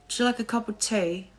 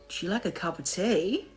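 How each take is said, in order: First: It is spoken in a British accent. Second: It is spoken in an Australian accent. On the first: "Let's see if I can do a British accent" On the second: "No, that's Australian"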